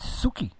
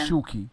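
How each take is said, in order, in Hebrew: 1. השם מתחיל בצליל s. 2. השם מתחיל בצליל sh. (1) "היא אומרת סוקי" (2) "השם שלי שוקי"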